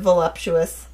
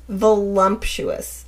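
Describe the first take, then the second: First: No extra m sound comes before the p. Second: An extra m sound comes before the p. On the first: The speaker calls it right. "Instead of voluptuous" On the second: The speaker calls it wrong. "have you heard people say voluptuous?"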